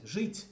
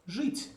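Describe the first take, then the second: First: Жить repeated with a high rising tone; model pronunciation. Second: Жить said slowly and clearly with a high rise; model pronunciation. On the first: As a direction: say жить again, clearly. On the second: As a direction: pronounce жить carefully for the class. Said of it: "let's take the verb". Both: Shown as a demonstration.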